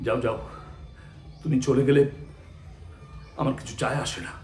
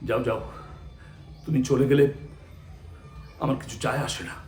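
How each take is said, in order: First: The line sounds hurt, with feeling beneath the words. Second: The line sounds hurt, with feeling beneath the words.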